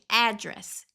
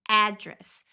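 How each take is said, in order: No difference in how they are said.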